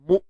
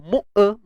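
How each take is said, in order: First: The sound is cut off cleanly at the stop. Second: A short extra vowel follows the glottal stop. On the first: The speaker calls it right. "syiddah ni suara yang tertahan" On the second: The speaker calls it wrong. "itu yang kita sebut tawallud. Kan suara yang diberanakkan"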